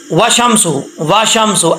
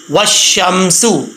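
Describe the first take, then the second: First: وشمسو said without the doubled shin, the common mistake; wrong pronunciation. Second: وشمسو with the shin doubled, said very slowly; correct pronunciation. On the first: Teacher shows pupils the mistake to avoid in pronunciation. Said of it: "ایسا نہیں پڑھنا". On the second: Teacher models the right way for pupils slowly. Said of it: "شین کو میم سے ملائیں گے". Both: Shown as a demonstration.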